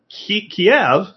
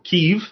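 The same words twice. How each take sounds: First: The city name is said in its older form. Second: The city name is said in its newer form.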